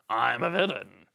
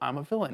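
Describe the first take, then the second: First: It is said in a blunt, overstated way. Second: It is said in a subtle, understated way.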